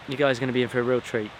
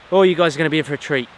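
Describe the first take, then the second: First: Said in the usual way. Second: Fast, high and loud, bursting with excitement; excited. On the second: Real, not acted. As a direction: gush about the treat ahead. Excited promise to viewers.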